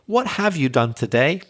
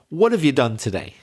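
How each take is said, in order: First: The word 'have' is said fully and clearly. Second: The word 'have' is reduced to a 've' sound. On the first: "You might want me to say" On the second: "I'm more likely to say"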